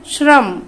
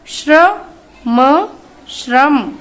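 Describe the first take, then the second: First: Said in the usual way. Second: श्रम stretched very slowly, श्र clearly sounded; drawn-out pronunciation. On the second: Shown as a demonstration. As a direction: draw out श्रम for the class to copy. (श्रम को बहुत धीरे खींचकर) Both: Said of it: "अब श्र से बनने वाले हम कुछ शब्दों को पढ़ेंगे".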